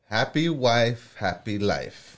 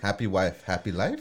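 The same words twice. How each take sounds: First: It is said as a statement, falling. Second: It is said as a question, rising.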